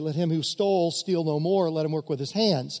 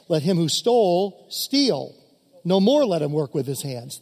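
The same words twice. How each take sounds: First: The pause comes after "no more." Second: The pause comes before "no more."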